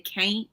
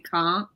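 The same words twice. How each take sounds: First: The vowel has no R-like sound. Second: The vowel has an R-like sound. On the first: This is how the other group says it. "you guys say can't or something like that" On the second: This is how the speaker's own group says it. "we say can't with the R sound with it"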